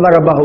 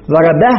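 First: "ضربه" with a final u, as -bahu; voweled ha. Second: "ضربه" stopped on a vowelless h; pausal ha. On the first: Teacher showing what not to say in pause, "ضربه" ending in -hu. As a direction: sound the u after the h of "ضربه". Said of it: "ما قل". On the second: Teacher showing the correct pause, "ضربه" ending in -bah. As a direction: cut the final vowel, end "ضربه" on a breathed h. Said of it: "يقف على الهاء بس-، ب-، بالإسكان". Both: Shown as a demonstration.

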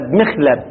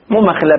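First: مخلب said with a kasra on the mim; corrected pronunciation. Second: Said in the usual way. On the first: Shown as a demonstration. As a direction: say مخلب as mikhlab, not makhlab. (مخلب بكسر الميم)

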